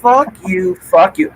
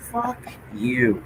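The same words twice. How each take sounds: First: Swearing out loud. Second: Very soft, under the breath; hushed swearing. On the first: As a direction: curse openly at full voice. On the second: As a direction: keep the curse barely audible. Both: Real, not acted. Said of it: "I can say this now".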